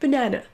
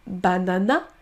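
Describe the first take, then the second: First: Banana with schwa in first and last syllable, buh-NA-nuh; English banana. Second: Banana with three full a sounds; every a said the same; French-style banana. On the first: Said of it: "mais banana". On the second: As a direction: learner banana. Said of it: "On ne dit pas banana". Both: Shown as a demonstration.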